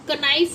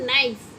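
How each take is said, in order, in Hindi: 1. इस शब्द की शुरुआत में उच्चारित k है। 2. इस शब्द की शुरुआत में n की ध्वनि है। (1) "इसको आप कनाइफ नहीं पढ़ेंगे ना" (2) "के साइलेंट है तो इसे आप क्या बोलते हैं?"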